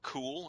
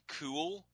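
First: The vowel is short, as in dull. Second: The vowel is long, as in pool.

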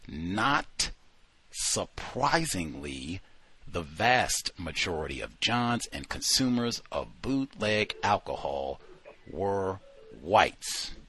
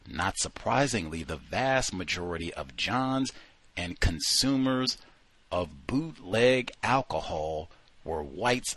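First: The opening words "not surprisingly" are strongly emphasized. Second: The opening words are read without special emphasis.

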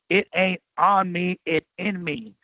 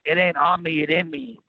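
First: It is said at a slower pace. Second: It is said at a quicker pace.

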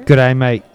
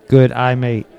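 First: It is said very fast. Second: It is said faster than normal.

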